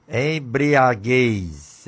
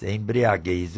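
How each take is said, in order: First: Embriaguez drawn out slow and firm; slow solemn Embriaguez; slow stressed Embriaguez. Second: Said in the usual way. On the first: Shown as a demonstration. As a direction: lean on Embriaguez, each syllable weighed. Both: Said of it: "O que é embriaguez?".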